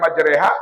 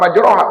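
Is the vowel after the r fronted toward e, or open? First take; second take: fronted; open. First: The vowel after r leans toward e. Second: The vowel after r is open and back. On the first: The speaker calls it right. "imalah teh selalu malaikat Jibril ketika baca" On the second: The speaker calls it wrong. "pasti bukan majroha"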